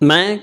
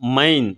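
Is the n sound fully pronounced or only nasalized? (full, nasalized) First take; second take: nasalized; full. First: The final n is only a light nasal. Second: The final n is fully pronounced. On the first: The speaker calls it right. "அரை மாத்திரையில் உச்சரிக்கணுங்க" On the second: The speaker calls it wrong. "ஒரு சில பேர் கடைசீட்டில் என்னன்னு வர்றதுனால மைன் மைன் இப்படின்னு படிப்பாங்க"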